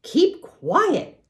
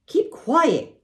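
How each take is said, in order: First: Much higher, louder, rising holler; tearful girl hollering. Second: Much higher, louder holler; tearful girl hollering. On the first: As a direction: shout it again through tears. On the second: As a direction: shout for silence. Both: A narrator's reading. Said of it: "hollered Fern".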